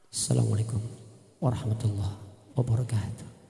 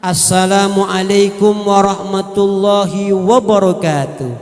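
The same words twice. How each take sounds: First: It is said softly and gently, like a Quran reciter. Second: It is said loudly and forcefully, like a preacher.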